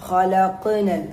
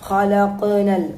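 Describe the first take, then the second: No difference in how they are said.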